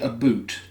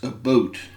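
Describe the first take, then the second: First: The vowel sounds like 'oo'. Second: The vowel sounds like 'oh'. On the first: "she's not saying" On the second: "it's almost like my O"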